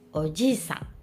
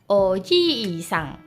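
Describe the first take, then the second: First: The vowel after 'oj' is kept short. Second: The vowel after 'oj' is held long. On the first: It means uncle. "Tapi kalau om" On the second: It means grandfather. "Kalau kakek kan oji-san, double i"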